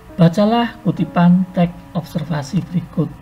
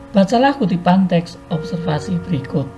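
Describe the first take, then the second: The two takes are said the same way.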